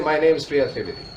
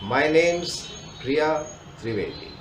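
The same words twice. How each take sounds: First: The name is spoken quickly and rushed. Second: The name is spoken slowly and clearly. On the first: The speaker calls it wrong. "Don't say" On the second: The speaker calls it right. "So speak your name slowly"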